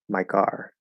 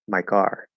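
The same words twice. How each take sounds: No difference in how they are said.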